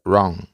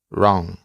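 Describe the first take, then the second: No difference in how they are said.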